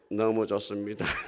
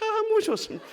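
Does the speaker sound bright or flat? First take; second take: flat; bright. First: It is said flatly, without warmth. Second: It is said brightly and warmly. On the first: The speaker calls it wrong. "그렇게 하면 안 돼요" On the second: The speaker calls it right. "약간 인상을 팍 펴면"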